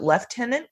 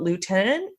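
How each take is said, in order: First: The word begins with a 'lef' sound. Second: The word begins with a 'loo' sound. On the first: "but we pronounce it lieutenant, I thought it was left-handed" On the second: "even though it's spelled lieutenant"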